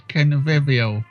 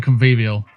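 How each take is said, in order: First: Said in the usual way. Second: "convivial" with a long ee, con-VEE-vial; posh "convivial", middle syllable like "vee"; posh pronunciation. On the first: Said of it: "How do British people pronounce it?". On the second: Shown as a demonstration. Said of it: "saying it in a posh voice".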